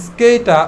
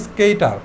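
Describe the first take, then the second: First: "স্কেইটা" ending on an open a, no r; silent final R. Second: "স্কেইটার" with the r sounded at the end; pronounced final R. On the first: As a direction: drop the last r of "স্কেইটা". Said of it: "আটা কিন্তু উচ্চারিত হয় নাই". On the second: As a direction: finish "স্কেইটার" on an r. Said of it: "তুমি চাইলে উচ্চারণ করতেও পারো". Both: Shown as a demonstration.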